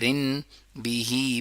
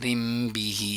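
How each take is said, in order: First: An n sound is said before the b. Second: An m sound is said before the b. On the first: "रिन बिही बन गया" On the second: "बन गया रिम बिही"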